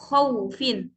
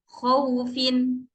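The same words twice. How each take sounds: First: The glide is pressed with added stress. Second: The glide comes out softly, without pressure. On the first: The speaker calls it wrong. "Kalau khaufin itu seperti ada nabroh atau tekanan" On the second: The speaker calls it right. "hurufnya itu lembut saja keluar"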